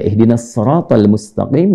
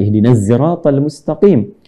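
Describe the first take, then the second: First: 'Sirat' begins with an emphatic s sound. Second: 'Sirat' begins with a z sound.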